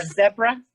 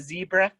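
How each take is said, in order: First: "zebra" with a short e, ZEB-ra; British pronunciation. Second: "zebra" with a long ee, ZEE-bra; American pronunciation. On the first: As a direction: say "zebra" to rhyme with Debra. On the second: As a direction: say "zebra" starting like the letter Z, zee. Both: Shown as a demonstration. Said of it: "instead of zebra".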